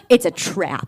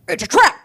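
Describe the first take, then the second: First: It is said in a plain, normal voice. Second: It is said as a Star Wars impression.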